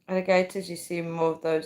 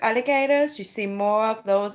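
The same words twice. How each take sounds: First: It is said in the speaker's usual accent. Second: It is said in an American accent.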